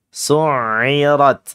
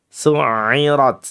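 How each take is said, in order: Both takes have the same delivery.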